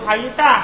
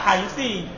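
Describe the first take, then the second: First: The word ends with a short a vowel. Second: The word ends with a short i vowel. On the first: "Kalau haitsa ya fathah terus" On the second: "Kalau haitsi maka kasroh terus"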